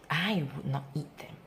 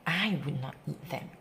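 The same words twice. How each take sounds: The two takes are said the same way.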